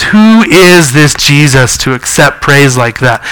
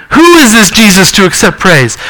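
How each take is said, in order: First: Scornful Pharisees. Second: Higher, rhetorical "who" stressed and falling; preacher echoing the Pharisees, higher and ironic. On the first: Retold or imitated. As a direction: lower and slow, a hint of disdain. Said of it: "basically what they're saying is". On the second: Real, not acted. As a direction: throw the question back with irony. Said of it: "just think of the irony".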